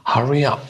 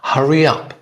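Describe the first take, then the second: The two takes are said the same way.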